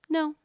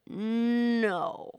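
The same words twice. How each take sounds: First: A quick, light, precise no. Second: A resonant, sustained, vibrating no. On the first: "Or the dabbing no" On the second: "Or the ringing no"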